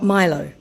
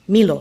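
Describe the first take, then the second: First: The name is said like the drink. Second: The name is said unlike the drink. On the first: The speaker calls it wrong. "not Milo" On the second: The speaker calls it right. "is pronounced Milo"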